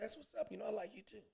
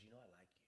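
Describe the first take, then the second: First: Higher, soft voice; coy high reply. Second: Very quiet, low voice; soft confession. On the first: Man replying to woman on his chest, coy high reply. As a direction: answer softly, pitched up. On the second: Woman confessing to the man while lying down, soft confession. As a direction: murmur it low, barely audible. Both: Retold or imitated.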